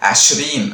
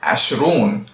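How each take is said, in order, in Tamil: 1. கடைசி அசையில் நீண்ட 'ee' உயிரெழுத்து இருக்கிறது. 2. கடைசி அசையில் நீண்ட 'oo' உயிரெழுத்து இருக்கிறது. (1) "ஸ்போக்கன்ல பேச்சு வழக்கில் வந்து அஷ்ரீன் அப்படின்னு சொல்றாங்க" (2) "எழுத்து வழக்கம் இருபதுன்ற வார்த்தை அஷ்ரூன் அப்படின்னு சொல்லுவாங்க"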